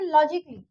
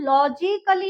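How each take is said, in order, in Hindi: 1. -lly से पहले कोई अतिरिक्त स्वर सुनाई नहीं देता। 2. -lly से पहले एक अतिरिक्त a स्वर सुनाई देता है। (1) "यहाँ पे ए साइलेंट हो गया" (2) "इसको हम लॉजिकली नहीं बोलेंगे"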